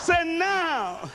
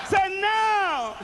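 First: Plain. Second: Higher shout. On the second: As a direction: lift "now" higher, shout it out. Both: Real, not acted. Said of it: "say now, everybody".

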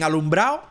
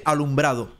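First: "alumbrado" said as "alumbrao", no D; dropped D. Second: "alumbrado" with the final -do sounded; careful "alumbrado", every syllable kept; full D. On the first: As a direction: drop the last D in "alumbrado", ending in -ao. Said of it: "Yo digo alumbrado desde chiquitico". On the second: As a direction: pronounce the D in "alumbrado", ending in -ado. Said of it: "o dicen alumbrado". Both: Shown as a demonstration.

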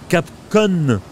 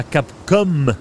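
First: Capcom said slowly as "Cap-CON", ending on a held N; Capcon with final N. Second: Capcom said slowly as "Cap-COM", lips closing on M; Capcom with final M. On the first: Showing viewers the parody name, Capcom ending in N. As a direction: stress the swapped last sound in Capcom, an N for the M. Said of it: "Capcom et pas Capcom". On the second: Contrasting the real studio with the parody, Capcom ending in M. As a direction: stress the real last sound in Capcom, a clear held M. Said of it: "et pas Capcom". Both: Shown as a demonstration.

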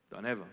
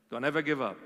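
First: Much quieter, almost a breath; soft echo. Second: Said in the usual way. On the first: Real, not acted. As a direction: let the repeat fade to near silence.

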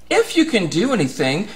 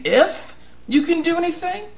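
First: Said in the usual way. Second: High, disbelieving question; incredulous repeat of the father's doubt; incredulous echo. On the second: Retold or imitated. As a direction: throw the doubt back, sharply rising. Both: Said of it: "And you're saying".

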